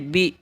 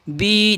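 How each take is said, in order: First: The vowel is short, not drawn out. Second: The vowel is long and drawn out. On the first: The speaker calls it right. "बा ज़ेर बी" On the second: The speaker calls it wrong. "बी नहीं कहेंगे"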